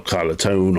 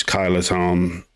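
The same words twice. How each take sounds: First: Kyloton ending like "tone"; alternative pronunciation. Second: Kyloton ending in a short "ton"; alternative pronunciation. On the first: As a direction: say Kyloton with a long o, rhyming with tone. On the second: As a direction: say Kyloton with a short open o at the end. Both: Shown as a demonstration. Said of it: "or however you wanna pronounce that".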